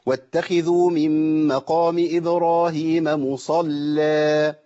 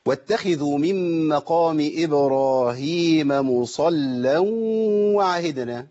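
First: مصلى ending with a held long alif on the stop; pausal form. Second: Slow chanted tajweed recitation; measured reverent reading; Quran recitation. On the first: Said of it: "أما أجي أقف عليها أقول إيه". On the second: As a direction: recite slowly, drawing out the long vowels. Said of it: "هي أصلًا إيه". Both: Shown as a demonstration.

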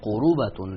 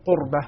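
First: قروبة in three syllables, slowly; Warsh reading. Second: قربة with the r closing the first syllable; ra without vowel. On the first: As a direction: say قروبة as qu-ru-ba, with u after the r. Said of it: "كان ورش يقرأها". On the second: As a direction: say قربة as qur-ba, no vowel after the r. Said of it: "يقرأ بتسكين الراء في كلمة". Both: Shown as a demonstration.

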